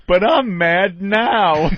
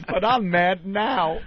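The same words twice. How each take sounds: First: Slow, loud, dopey Homer voice, drawn out; a loud, slowed mock Homer line; Homer impression. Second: Slow, dopey Homer voice, drawn out; lightly done Homer line, drawn out; Homer impression. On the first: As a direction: do Homer Simpson, slow and dumb. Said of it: "the Homer line from the Simpsons". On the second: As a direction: Homer Simpson again, slow and dumb. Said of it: "He goes".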